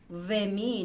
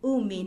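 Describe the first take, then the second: First: The word begins with a 've' sound. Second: The word begins with an 'oo' sound. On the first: The speaker calls it wrong. "you do not say ve-min" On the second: The speaker calls it right. "you say u-min"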